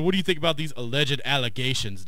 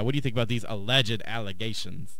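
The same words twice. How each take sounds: First: A cartoonishly exaggerated put-on voice. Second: A quietly smug, self-satisfied tone. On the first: An over-the-top caricature of the person. The speaker calls it wrong. "I always like exaggerate their voices, but no, he didn't say it like that" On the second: How the person actually came across. The speaker calls it right. "he came off like that smug"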